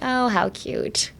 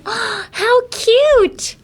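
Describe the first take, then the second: First: It sounds patronizing and condescending. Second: It sounds warm and genuinely delighted. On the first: The speaker feels superior to the other person. "kind of feeling superior" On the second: The speaker truly finds it adorable. "if you want to actually mean like, "Oh, how cute,""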